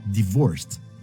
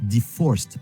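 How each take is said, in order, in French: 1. La consonne du milieu est un son V. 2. La consonne du milieu est un son F. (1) "c'est bien divorced avec un V" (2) "Pas divorced avec un F"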